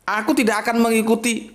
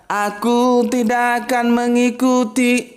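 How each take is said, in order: First: A firm, resolute declaration; stern, firm statement; firm and decisive. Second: Slow, swaying, drawn-out singsong; mock crooning, stretched out slowly; mock lilting. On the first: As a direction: say it plainly and decisively, no sway. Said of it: "surat Al-Kafirun ini mesti tegas". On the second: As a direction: croon it lazily like a ballad. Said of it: "Nggak mungkin dia mendayu-dayu". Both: Shown as a demonstration.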